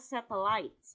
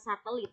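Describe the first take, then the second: First: The word has an English pronunciation. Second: The word has an Indonesian pronunciation. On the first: The speaker calls it right. "Pengucapannya adalah satellites" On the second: The speaker calls it wrong. "bukan satelit. Satelit itu bahasa Indonesia"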